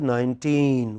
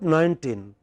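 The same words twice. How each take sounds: First: The stress falls on the second syllable. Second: The stress falls on the first syllable. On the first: The speaker calls it right. "it is nineteen" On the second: The speaker calls it wrong. "It is not nineteen"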